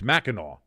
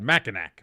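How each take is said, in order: First: The word is said the local way, not as spelled. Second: The word is said letter for letter as spelled. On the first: This is how the name is actually said. "it's Mackinac" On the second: This is how the name is written. "but it's spelled Mackinac"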